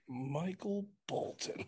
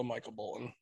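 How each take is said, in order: First: Slow, softer, higher-pitched questioning of the name; film-line impression. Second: Said in the usual way. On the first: Quoting Office Space to fellow fans, slow mock puzzlement. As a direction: draw out each name, quietly incredulous.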